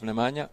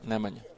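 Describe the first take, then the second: First: The name is said with an English-speaker accent. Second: The name is said with a native Serbian accent. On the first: The speaker calls it wrong. "Instead of Nemanja" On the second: The speaker calls it right. "accent is different"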